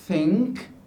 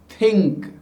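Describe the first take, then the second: First: The th is an English-style soft fricative. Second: The th is a Hindi-style dental stop. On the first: The speaker calls it right. "these words should be" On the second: The speaker calls it wrong. "when we pronounce those words using our th sound"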